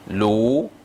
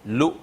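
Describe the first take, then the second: First: The vowel is held long. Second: The vowel is kept short. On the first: "l'une de ces lettres, de ces sons plus longs" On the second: "Alors qu'ici c'était"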